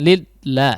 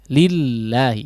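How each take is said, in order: First: It is said too forcefully and cut off abruptly. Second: It is said smoothly and evenly to the end. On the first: The speaker calls it wrong. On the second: The speaker calls it right.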